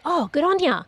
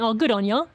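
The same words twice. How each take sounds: First: The phrase is said in a genuine tone. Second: The phrase is said in a sarcastic tone. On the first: The speaker is truly congratulating someone. "that means you're actually genuinely congratulating them" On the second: The speaker does not think the thing is very good. "that means you're actually being sarcastic"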